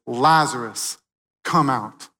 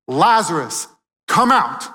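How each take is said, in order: First: Said in the usual way. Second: Lazarus, come out shouted higher and louder; loud command. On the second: Retold or imitated. Preacher voicing Jesus calling Lazarus, ringing shout. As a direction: call him out of the tomb at full voice. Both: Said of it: "he says three words that should make us tremble".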